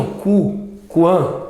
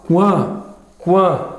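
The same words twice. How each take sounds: First: "Cu" then "quan", U pulled apart before the A; split into sounds. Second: "quan" said slowly with the U glide heard; syllable demo. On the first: Teacher separates the U sound in "quan". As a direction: break "quan" into "Cu" and "quan". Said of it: "Claro que tem o som do U". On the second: Teacher models "quan" for the class. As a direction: stretch "quan" to show the U. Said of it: "Tem o som do U?". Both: Shown as a demonstration.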